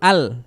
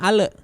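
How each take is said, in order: First: The l ends cleanly with no added vowel. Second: An extra short e vowel follows the l. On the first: The speaker calls it right. "Yang betul al" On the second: The speaker calls it wrong. "jangan ada e-nya, jangan ale"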